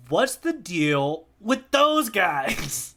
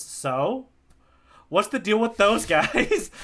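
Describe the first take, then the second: First: Slow Zoro quote. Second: Zoro quote, laughing. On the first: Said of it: "Zoro's saying it". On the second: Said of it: "Zoro goes". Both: Retold or imitated.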